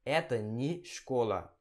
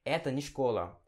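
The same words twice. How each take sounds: First: Slow "Это не школа" with не as nie; slow careful Russian. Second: Quick "Это не школа" with не as ni; fast everyday Russian. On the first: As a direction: drag out "Это не школа" word by word. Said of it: "Ao invés de". (pronúncia lenta com "nie") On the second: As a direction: rattle off "Это не школа" like a native. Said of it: "Eles falam mais rápido". (fala rápida do dia a dia, "ni") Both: Shown as a demonstration.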